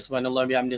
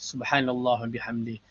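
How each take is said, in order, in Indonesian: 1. Dibaca cepat tanpa penghayatan. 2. Dibaca perlahan dan penuh penghayatan. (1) "tidak sama" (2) "dengan penghayatan begitu"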